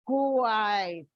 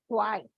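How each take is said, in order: First: "Quite" drawn out into two syllables, like ku-ait. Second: "quite" said as a single syllable; one syllable. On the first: Teacher showing children a disyllabic word, "Quite" stretched into two syllables. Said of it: "two syllables". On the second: Teacher showing children how a word is pronounced, "quite" in one syllable. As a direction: say "quite" in one beat, with one gliding vowel. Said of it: "this is one syllable". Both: Shown as a demonstration.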